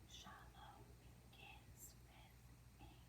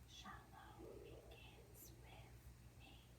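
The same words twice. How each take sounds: First: It is spoken in a whisper. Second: It is spoken in a whisper.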